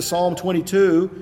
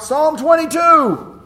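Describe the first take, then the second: First: Said in the usual way. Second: A high, loud, slow call across a crowd; shouting out. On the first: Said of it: "Rather, you would draw". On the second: Shown as a demonstration. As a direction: shout it out like announcing a number. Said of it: "shouting out".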